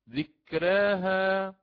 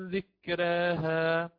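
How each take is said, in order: No difference in how they are said.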